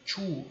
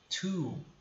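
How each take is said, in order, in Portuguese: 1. O som do t inicial é forte e pesado. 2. O som do t inicial é suave e leve. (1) "Nunca two" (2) "e sim two. Ele é bem mais leve"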